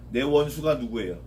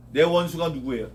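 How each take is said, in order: Both takes have the same delivery.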